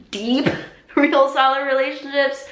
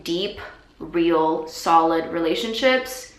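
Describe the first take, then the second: First: High, loud, put-on voice with a laugh; playfully overdone, pitched way up; exaggerated emphasis. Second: Said in the usual way.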